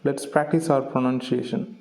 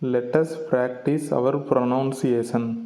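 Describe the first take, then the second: First: 'Let us' is contracted into one syllable. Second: 'Let us' is said as two full words. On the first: The speaker calls it right. "instead we have to say" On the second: The speaker calls it wrong. "இது எப்படி சொல்லக்கூடாதுன்னா"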